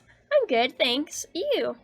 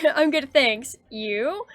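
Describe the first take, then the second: First: The voice falls flatly on the final word. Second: The voice rises on the final word. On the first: It sounds like a statement, not a question. The speaker calls it wrong. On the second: It asks the other person how they are. The speaker calls it right.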